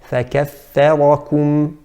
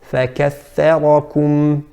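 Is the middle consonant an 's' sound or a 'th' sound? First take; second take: th; th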